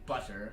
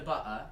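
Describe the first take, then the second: First: The middle T is a soft tap. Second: The middle T is a glottal stop. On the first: "like you would expect someone to say" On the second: "Like the glottal stop"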